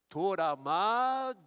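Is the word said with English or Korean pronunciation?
Korean. An extra vowel breaks up the opening consonant cluster. "Torama é a pronúncia coreana"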